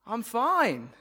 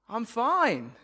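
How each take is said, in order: First: The voice is bright, upbeat and enthusiastic. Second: The same.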